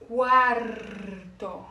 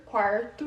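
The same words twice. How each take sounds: First: Slow, loud quarto with the r pulled in the throat; Spanish cuarto. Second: Quarto with a light Brazilian r; Portuguese quarto. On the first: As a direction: roll quarto's r hard from the throat. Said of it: "puxar bastante o R aqui na garganta". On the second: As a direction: quarto com r brasileiro. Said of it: "quarto em português". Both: Shown as a demonstration.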